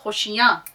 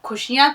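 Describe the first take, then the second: First: खुशियाँ with a rasping throat kh; throaty kh at the start of खुशियाँ. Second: खुशियाँ with a breathy k-h, not throaty; खुशियाँ said with a plain aspirated k; wrong aspirated k. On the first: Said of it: "खुशियाँ कोई लफ्ज नहीं होता". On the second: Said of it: "कोई लफ्ज नहीं होता". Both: Shown as a demonstration.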